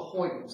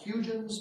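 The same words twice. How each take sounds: First: The name is said roughly like the Dutch. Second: The name is read as its English spelling suggests. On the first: "the Dutch pronunciation is close to Huygens" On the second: "it looks like Huygens"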